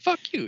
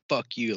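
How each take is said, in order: First: It is said in a happy tone. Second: It is said in an angry tone.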